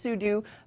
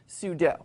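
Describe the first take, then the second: First: The last syllable sounds like 'do'. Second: The last syllable sounds like 'dough'. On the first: This is the official pronunciation. "it is officially pronounced" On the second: This is a common alternative pronunciation. "commonly also pronounced"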